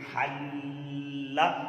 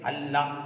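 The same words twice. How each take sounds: First: The doubled L is held with a firm stop. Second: The doubled L is rushed without a hold. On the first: The speaker calls it right. "हल्ला यानी ठहराओ, ठहराओ होना चाहिए" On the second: The speaker calls it wrong. "हल्ला ऐसे नहीं"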